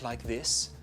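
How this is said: The voice sounds breathy and airy. "very breathy"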